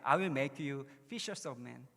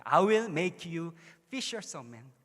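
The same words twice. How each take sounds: First: Very slow, word by word, leaning on "will"; slow English quote. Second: Very slow and much louder, booming "will"; proclaimed quote. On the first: Brother quoting his verse in English, slow and deliberate. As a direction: spell out "I will make you fishers of men" deliberately. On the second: Pastor proclaiming the verse to the congregation, booming slowly. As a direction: proclaim "I will make you fishers of men" like a declaration. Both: Retold or imitated. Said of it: "그 영어로 계속 얘기하는 거야".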